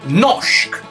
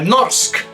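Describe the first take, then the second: First: The r and s merge into a sh sound. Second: The r and s are pronounced separately. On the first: The speaker calls it right. "se pronuncia noshk" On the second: The speaker calls it wrong. "esta palabra no se pronuncia norsk"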